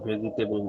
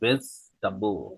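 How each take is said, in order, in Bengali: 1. এটা চারটি শব্দাংশে উচ্চারিত হয়, ve-ji-te-bl। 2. এটা তিনটি শব্দাংশে উচ্চারিত হয়, vej-ta-bl। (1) "এটা উচ্চারণ ভেজিটেবল না" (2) "এটা উচ্চারণ হচ্ছে ভেজটাবল"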